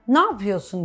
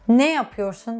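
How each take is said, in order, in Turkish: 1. Bazı sesler düşer ve kelimeler birbirine kaynaşır. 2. Cümlenin her sesi ayrı ayrı telaffuz edilir. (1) "Bir şeyleri yutuyoruz, uluyoruz" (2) "ne yapıyorsun demiyoruz değil mi?"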